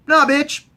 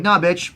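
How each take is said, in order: First: High-pitched mock defiance; defiant refusal. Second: Said in the usual way. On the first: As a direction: fire off a punchy, raised-voice no. Jaime refuses Cersei.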